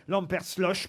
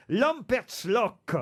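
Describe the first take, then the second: First: Lampertsloch ending in a soft "loche"; soft final sh. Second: Lampertsloch ending in a hard "lock"; hard final k. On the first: Quizmaster offering another reading, Lampertsloch said with final sh. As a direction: say Lampertsloch with a French sh at the end. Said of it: "ou Lor, je sais pas comment on doit dire". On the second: Quizmaster trying an Alsatian village name, Lampertsloch said with final k. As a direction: drag out Lampertsloch, closing on a k sound. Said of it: "je sais pas comment on doit dire". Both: Shown as a demonstration.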